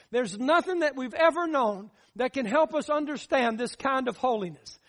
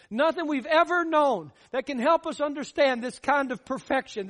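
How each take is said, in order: First: Said in the usual way. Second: Rising preacher's insistence on help; emphatic repeat. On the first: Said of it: "repeats the line". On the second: Shown as a demonstration. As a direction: drive it home the second time. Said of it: "repeats the line with more force".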